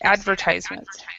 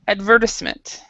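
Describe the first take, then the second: First: It is said with an American pronunciation. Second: It is said with a British pronunciation. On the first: "now that was American English" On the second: "in British English, they would pronounce it advertisement"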